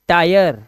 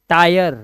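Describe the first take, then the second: The two takes are said the same way.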